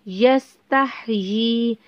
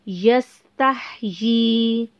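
Both takes have the same delivery.

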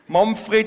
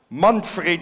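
First: The name is said in a regional dialect. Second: The name is said in Standard German. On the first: "ich übersetze für die Stuttgarter" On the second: "auf Hochdeutsch"

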